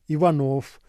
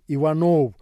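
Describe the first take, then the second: First: The final consonant is voiceless, like f. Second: The final consonant is voiced, like v. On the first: The speaker calls it right. "а" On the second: The speaker calls it wrong. "произносится не"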